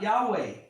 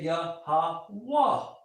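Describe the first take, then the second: First: Two syllables, ending in a 'weh' vowel sound. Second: Three syllables, ending in an open 'wah' sound. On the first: The speaker calls it wrong. "not Yahweh" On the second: The speaker calls it right. "So you say Yah-ha-wah"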